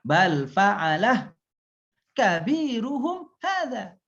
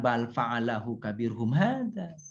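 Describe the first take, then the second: First: Very slow "bal fa'alah", break, then a higher "kabiruhum hadza"; correct reading. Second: "bal fa'alahu kabirhum hadza" read slowly as one run with no break; slow, unbroken Arabic phrase with no pause; wrong reading. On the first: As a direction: stop after "fa'alah", then a long pause before "kabiruhum hadza". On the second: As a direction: join fa'alahu straight onto kabirhum. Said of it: "para ulama mengatakan bacanya jangan". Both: Shown as a demonstration.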